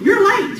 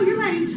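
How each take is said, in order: First: It is said in an angry tone. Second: It is said in a content tone. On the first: The speaker is upset about the lateness. "So that's mad, right? I'm mad about it" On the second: The speaker is at ease with the lateness. "And then content"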